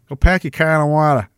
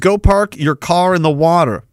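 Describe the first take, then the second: First: It is said in a put-on Boston accent. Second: It is said in a plain, ordinary accent.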